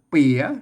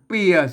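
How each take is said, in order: First: The word is said with the jattawa tone. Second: The word is said with the ek tone. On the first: "อ่านเปียเสียงจัตวา" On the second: "อ่านเปียเสียงเอก"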